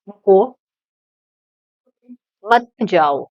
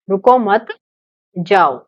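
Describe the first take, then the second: First: The pause comes right after रुको. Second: The pause comes right after मत.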